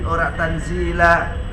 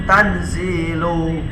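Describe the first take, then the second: First: The word ends with a final 'a' vowel. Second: The word ends with a final 'u' vowel. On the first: The word is read in the accusative case. The speaker calls it wrong. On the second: The word is read in the nominative case. The speaker calls it right. "kelawan rafa, berarti macane apa? Tanzilu"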